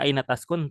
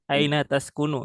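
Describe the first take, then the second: First: The final vowel of the last word is dropped. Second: The final vowel of the last word is pronounced. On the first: "boleh kita baca Aina Taskun" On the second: "harus dibaca full, ya. Harokat akhirnya juga dibaca"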